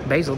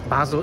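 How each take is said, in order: First: The name is given an English-style pronunciation. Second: The name is given a German pronunciation. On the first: "I don't actually know how to pronounce it in English. Basel, probably" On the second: "it's in German"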